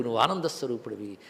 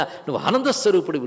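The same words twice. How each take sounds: First: Soft echo. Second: Said in the usual way. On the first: Acted. Teacher repeats the assurance.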